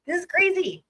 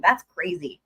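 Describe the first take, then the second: First: Much higher, disbelieving exclaim; incredulous. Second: Said in the usual way. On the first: Real, not acted. Reacting to the filing with high incredulous surprise. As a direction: pitch it up in sheer disbelief.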